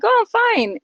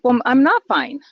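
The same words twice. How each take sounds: First: Much higher, breezy brush-off; fake cheerful. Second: Said in the usual way. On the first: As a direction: chirp "I'm fine" to hide the pain. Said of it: "I'm like". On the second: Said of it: "then I think".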